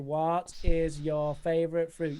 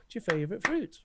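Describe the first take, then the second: First: Every word gets even stress, sounding choppy. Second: The words flow in a smooth stressed rhythm. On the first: The speaker calls it wrong. "their intonation was way off" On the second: The speaker calls it right. "then suddenly they get the idea"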